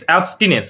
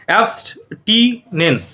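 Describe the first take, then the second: First: Said in the usual way. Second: "অ্যাবস্টিনেন্স" very slow, broken into syllable chunks; slow model pronunciation. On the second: Shown as a demonstration. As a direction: sound out "অ্যাবস্টিনেন্স" piece by piece, with gaps. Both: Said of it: "এরকম উচ্চারণ হবে".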